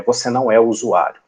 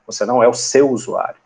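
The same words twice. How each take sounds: First: Firm weight on "o usuário"; stress on O USUÁRIO. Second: "seu" picked out with extra emphasis; stress on SEU. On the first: Teacher reminding developers who they are not, stress on "o usuário". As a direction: land "você não é" evenly, leaning into "o usuário". Teacher's rule, first wording. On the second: Teacher sharpening the rule for developers, stress on "seu". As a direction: lean on the word "seu", then let "usuário" fall. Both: Shown as a demonstration.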